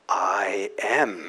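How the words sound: It is said strongly and indignantly.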